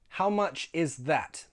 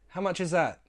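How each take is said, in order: First: The th is pronounced, spoken slowly. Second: The th is dropped and the final t glottalized. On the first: "this time, the slow way" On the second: "I removed that T H and I glottalized that final T"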